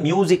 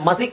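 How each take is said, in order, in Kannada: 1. ಮೊದಲ ಉಚ್ಚಾರಾಂಶ 'myoo' ಶಬ್ದ. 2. ಮೊದಲ ಉಚ್ಚಾರಾಂಶ ಸರಳ 'ma' ಶಬ್ದ. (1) "ಅದು ಮ್ಯೂಸಿಕ್ ಅಂತಾನೆ ಬರುತ್ತೆ" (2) "ಮ್ಯೂಸಿಕ್ ಎಲ್ಲ ಮಸಿಕ್ ಅಂತ ಬರಲ್ಲ"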